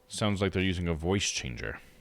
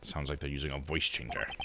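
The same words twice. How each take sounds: First: It is said in a normal speaking voice. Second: It is said in a put-on deep voice.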